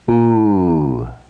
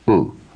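First: The vowel is long, held for two beats. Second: The vowel is short, held for one beat. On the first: "Lengthening the sound, giving it two matras" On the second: "One matra, short"

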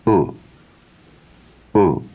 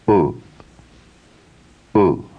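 No difference in how they are said.

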